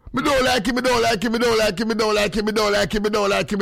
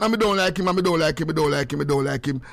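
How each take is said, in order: First: Higher, sing-song repeated taunt; voice play. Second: Said in the usual way. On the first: Shown as a demonstration. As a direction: chant it in a put-on higher voice. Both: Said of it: "in a, in a form of voice".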